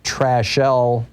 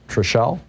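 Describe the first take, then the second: First: The first syllable sounds like 'trash'. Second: The first syllable sounds like 'trish'. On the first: "the unfortunate name of Trashelle Odom, T R A S H E L L E" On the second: "it's probably Trishelle. That sounds uh, a little better"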